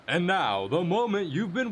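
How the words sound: It is said in a put-on announcer voice. The speaker calls it right.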